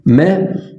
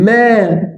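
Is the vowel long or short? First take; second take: short; long. First: The vowel is short. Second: The vowel is long. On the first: "حركات قصيره" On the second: "صوت طويل"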